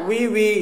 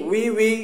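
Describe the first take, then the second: Both takes have the same delivery.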